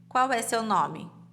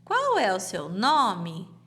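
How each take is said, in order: First: It is said flatly, like a statement. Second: It is said with question intonation.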